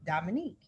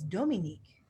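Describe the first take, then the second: First: Dominique said the American English way; Dominique, American style; American pronunciation. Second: Dominique said the French way; Dominique, à la française; French pronunciation. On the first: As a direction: Dominique with a plain American accent. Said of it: "when you're speaking English and with an American accent". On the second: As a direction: Dominique with French vowels and stress on the last syllable. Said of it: "In French". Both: Shown as a demonstration.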